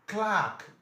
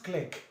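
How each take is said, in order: First: "Clark" with a long "ah", higher and louder. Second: "clerk" said as "klek"; mispronounced clerk. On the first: Teacher corrects an exam word, firm "klaahk". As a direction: open and lengthen the vowel in "Clark". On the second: Teacher shows the wrong exam pronunciation, short "klek". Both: Shown as a demonstration. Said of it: "Not clerk".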